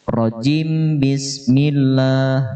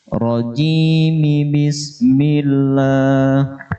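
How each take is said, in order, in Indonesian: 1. Huruf m tidak diikuti vokal. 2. Huruf m diikuti vokal i. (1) "Jangan rojim bismillah yang sering terjadi" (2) "maka mimnya dibaca kasrah sehingga bunyinya rojimi bismillah"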